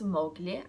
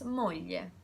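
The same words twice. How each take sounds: First: The gl is said as a hard g plus l. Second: The gl is said as a soft ly sound. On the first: The speaker calls it wrong. "The pronunciation there is not gl" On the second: The speaker calls it right. "I pronounce moglie"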